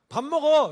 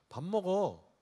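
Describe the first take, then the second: First: It is said at the loudest volume. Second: It is said somewhat louder.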